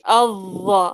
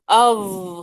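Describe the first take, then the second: First: The voice moves on at the end of the sound. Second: The sound ends on its own without moving. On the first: The speaker calls it wrong. "ما تحرك صوتك في الأخير، ما تحكي أظ" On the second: The speaker calls it right. "خلي صوت الحرف ينتهي لوحده"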